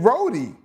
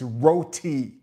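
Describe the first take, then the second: First: Roti is said with a New York accent. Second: Roti is said with a Trinidadian accent.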